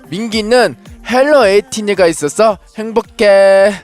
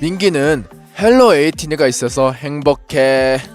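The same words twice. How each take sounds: First: It is said in a very cute way. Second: It is said in a plain, less cute way.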